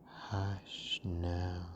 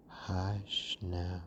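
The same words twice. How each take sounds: The two takes are said the same way.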